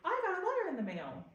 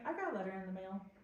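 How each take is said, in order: First: It is said with excitement. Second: It is said plainly, without excitement.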